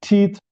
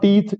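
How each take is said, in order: First: The first t is said with a puff. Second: The first t is said without a puff. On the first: The speaker calls it right. "it's teeth" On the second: The speaker calls it wrong. "It's not teeth"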